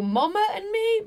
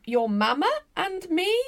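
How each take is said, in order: First: "mama" with an open back vowel, MAH-muh; higher, with "mama" said MAH-muh; pronunciation of mama. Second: "mama" with a short front a, as in "mam"; higher, with "mama" said MAM-uh; pronunciation of mama. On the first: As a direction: say "mama" as MOM-uh. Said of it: "but doesn't say mum". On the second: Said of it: "he says something like". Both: Retold or imitated.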